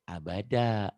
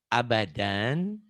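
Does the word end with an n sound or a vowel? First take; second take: vowel; n sound. First: The word ends on an open vowel. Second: The word ends with an n sound. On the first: The reading stops at this word. "jika dihentikan" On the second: The reading continues into the next word. "Kalau diteruskan"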